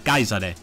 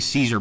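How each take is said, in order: First: The name begins with a K sound. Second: The name begins with an S sound. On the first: This is how it was said in ancient Latin. "I believe the C was pronounced as a K" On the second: This is the modern way of saying the name. "I'm saying Caesar because that's that's sort of the contemporary way"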